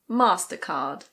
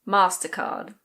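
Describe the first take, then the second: First: It is said with a British accent. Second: The same.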